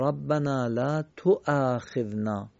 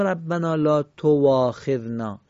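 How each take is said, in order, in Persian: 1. همزه خوانده میشه، صدای واو نیست. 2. در این عبارت صدای واو خوانده میشه. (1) "میگیم ربنا لا تواخذنا" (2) "نمیگیم ربنا لا تواخذنا"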